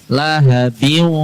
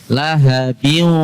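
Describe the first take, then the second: No difference in how they are said.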